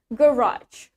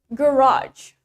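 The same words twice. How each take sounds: First: British accent, stress on the first syllable. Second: American accent, stress on the second syllable.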